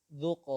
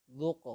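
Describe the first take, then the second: The two takes are said the same way.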